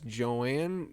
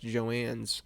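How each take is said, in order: First: The name ends without any final s sound. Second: The name ends with an added s sound.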